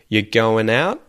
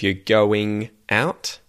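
First: The ending is reduced to an n sound. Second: The ending is a full ing sound. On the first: "an N sound instead of an ing sound" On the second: "instead of"

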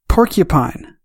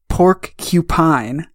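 First: The word is said smoothly as one unit. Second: The word is split, with pork said separately.

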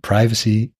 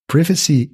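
First: The word has an American English pronunciation. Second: The word has a British English pronunciation. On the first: "privacy is American English" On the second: "Privacy is British English"

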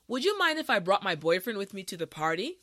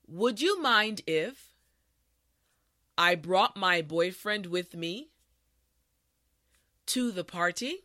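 First: The sentence is said at a natural pace. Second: The sentence is said at a slow pace. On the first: "this time we will go at a more natural pace" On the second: "this time repeat after me"

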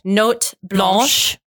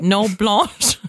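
First: The T at the end of the first word is pronounced. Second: The T at the end of the first word is silent. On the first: The speaker calls it right. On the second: The speaker calls it wrong.

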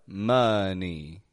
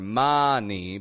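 First: The first vowel is a short uh. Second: The first vowel is not a short uh. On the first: The speaker calls it right. "Getting an sound in that O" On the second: The speaker calls it wrong. "It's not money"

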